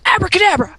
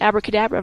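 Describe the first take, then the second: First: It is said firmly, with force behind it. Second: It is said lightly, without force. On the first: The speaker really means it. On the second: It is only an ordinary word.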